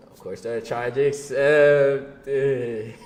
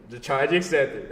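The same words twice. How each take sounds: First: Every word stretched out slowly; slow dramatic drawl. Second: Said in the usual way. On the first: Acted. Laughing at how the calls kept getting accepted, slow drawn-out delivery. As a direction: drag it out like a punchline. Punchline repeated after laughing.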